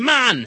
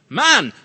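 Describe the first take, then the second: First: It is said in a silly put-on voice. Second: It is said in a normal speaking voice.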